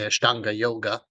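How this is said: It is said with a Western pronunciation.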